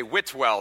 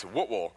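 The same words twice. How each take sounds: First: "Whitwell" as WIT-WELL, both vowels full; northern pronunciation. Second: "Whitwell" run together as WUT-wul, second vowel reduced; local pronunciation. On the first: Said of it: "up in the north, we say". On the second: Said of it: "however you say it down here". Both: Shown as a demonstration.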